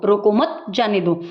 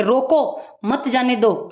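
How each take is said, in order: First: रोको मत run together, then जाने दो apart; pause after मत. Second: रोको set apart, then मत जाने दो as one phrase; pause after रोको. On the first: Teacher showing how one punctuation mark changes meaning, pause after मत. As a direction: join मत to रोको and break before जाने दो. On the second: Teacher showing how one punctuation mark changes meaning, pause after रोको. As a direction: break right after रोको, keep मत with जाने दो. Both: Shown as a demonstration. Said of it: "एक चिन्ह की वजह से दो चीज़ें बदल गई हैं".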